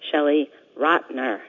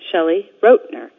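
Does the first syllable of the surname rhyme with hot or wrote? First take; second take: hot; wrote. First: The surname's first syllable rhymes with hot. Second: The surname's first syllable rhymes with wrote. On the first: The speaker calls it wrong. "A lot of people mispronounce my name and say" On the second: The speaker calls it right. "I wrote the book"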